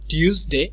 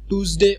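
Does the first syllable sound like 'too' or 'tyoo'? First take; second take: tyoo; too. First: The first syllable has a 'y' glide, 'tyoo'. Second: The first syllable is a plain 'too'. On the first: The speaker calls it right. "এটা clear থাকতে হবে যে টিউসডে" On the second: The speaker calls it wrong. "হয়তো আমরা টুসডে অথবা Wednesday অনেকে বলে ফেলি"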